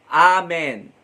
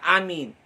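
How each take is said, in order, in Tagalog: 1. Ang huling pantig ay binibigkas na may patinig na e. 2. Ang huling pantig ay binibigkas na may patinig na i. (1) "madalas na sasabihin natin" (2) "hindi niya masabi yung salitang Amen, may madiin pa ... mali yung pronunciation"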